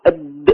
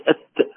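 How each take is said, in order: First: "الد" ending in a held voiced d; stopped sound. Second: "الت" ending in an airy voiceless t; whispered release. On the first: Teacher contrasting two letters, sound blocked on "الد". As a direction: lock the د with no escaping breath. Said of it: "الدال محبوسة الصوت". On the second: Teacher contrasting two letters, breathy release on "الت". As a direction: let breath escape after the ت. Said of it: "التاء فيها همس". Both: Shown as a demonstration.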